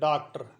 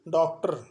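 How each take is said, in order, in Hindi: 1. पहला स्वर खुले 'aa' जैसा बोला जाता है। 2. पहला स्वर 'aa' और 'o' के बीच में आता है। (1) "साधारण बोलचाल में जो मारवाड़ी है उसमें तो लोग डॉक्टर भी बोल देते हैं" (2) "न तो आ बोला जाता है और न ओ बोला जाता है"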